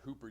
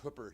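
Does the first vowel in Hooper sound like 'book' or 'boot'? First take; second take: boot; book. First: The first vowel is long, as in boot. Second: The first vowel is short, as in book. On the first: This is how outsiders say the town's name. The speaker calls it wrong. "not Hooper, Utah" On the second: This is how locals say the town's name. The speaker calls it right. "It's Hooper, Utah"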